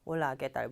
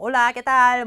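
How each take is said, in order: First: The voice is pitched low. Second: The voice is pitched slightly higher. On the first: The speaker calls it wrong. "이거보다는" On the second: The speaker calls it right. "살짝 올려서 얘기를 해주면"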